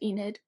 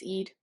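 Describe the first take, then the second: First: The word has an n sound before the d. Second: The word has no n sound before the d. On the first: The speaker calls it wrong. "which I always said Enid" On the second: The speaker calls it right. "It's Eid. I learned how to pronounce it"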